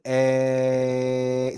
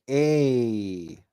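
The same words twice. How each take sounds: First: The vowel stays pure with no glide. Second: The vowel ends with a 'y' glide. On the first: The speaker calls it right. "We don't put the ye on the end" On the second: The speaker calls it wrong. "a lot of people pronounce this like a"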